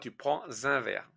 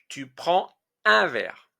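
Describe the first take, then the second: First: A liaison sound links 'prends' to 'un'. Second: The words are said without a liaison sound. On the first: The speaker calls it wrong. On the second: The speaker calls it right.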